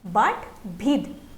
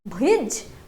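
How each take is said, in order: First: The word ends with a d sound. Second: The word ends with a j sound. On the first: "pronounced as bhid" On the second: "j sound"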